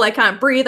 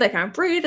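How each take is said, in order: First: Louder, urgent gasping plea; a panicked cry for air. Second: A worn-out, fading plea; fading gasp. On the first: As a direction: push out I can't breathe in panic. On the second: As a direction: let it sink away as air runs out. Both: Acted. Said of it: "by saying, like".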